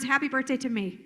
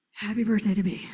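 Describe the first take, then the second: First: Little air, get it out fast; shallow breath. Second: Lower, fully supported voice; deep breath. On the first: Trainer showing how breath shapes voice, short of air. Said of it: "Take a really shallow breath". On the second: Trainer showing breath support to a class, relaxed and lower. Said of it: "Now take a deep breath". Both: Shown as a demonstration.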